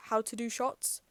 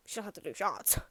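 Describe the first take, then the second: First: Said in the usual way. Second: Softer, knowing insinuation; suggestive joke. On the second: Pretend. Joking to viewers that mum knows shots, sly and soft. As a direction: drop the voice to hint mum parties. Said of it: "No, I'm joking".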